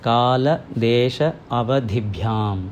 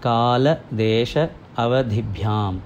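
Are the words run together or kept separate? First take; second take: separate; separate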